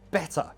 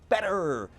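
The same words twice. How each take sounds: First: A British accent with no final r sound. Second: An American accent with the final r sounded. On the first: "Whereas British English, usually it's more like" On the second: "in American English, they're like"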